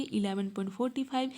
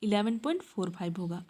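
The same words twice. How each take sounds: First: forty five read as one number, forty-five, after the point; an accidental wrong reading of the decimal as forty five; misreading the decimal. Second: Digits after the point read one by one as four five; fixing her own slip with four five digit by digit; corrected decimal reading. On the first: Real, not acted. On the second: Shown as a demonstration. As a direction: say four five as separate digits, not forty-five. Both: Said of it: "मैं कुछ गलत पढ़ दी थी क्या?".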